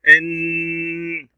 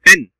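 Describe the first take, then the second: First: The n is held briefly without a full stop. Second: The n ends in a sharp, complete stop. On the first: "الشدة كالمطبات نهدئ عند الحرف لا نتوقف" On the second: "لما تكون سكون إشارة حمراء نتوقف، توقف قطعي"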